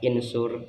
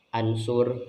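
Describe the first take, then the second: First: The word begins with an i vowel. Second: The word begins with an a vowel. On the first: "tidak boleh dibaca insur" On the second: "tidak boleh dibaca ansur"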